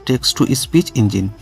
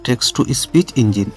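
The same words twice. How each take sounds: The two takes are said the same way.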